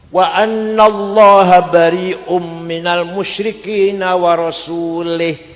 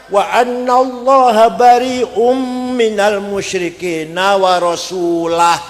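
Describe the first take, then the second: First: The last word ends with an 'ih' sound. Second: The last word ends with an 'ah' sound. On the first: God disowns the idolaters and also the messenger. The speaker calls it wrong. "Ono wong maca Quran salah" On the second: God and the messenger both disown the idolaters. The speaker calls it right. "Yang benar bacanya"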